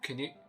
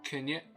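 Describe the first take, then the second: First: The vowels are reduced to schwa. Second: The vowels are reduced to schwa.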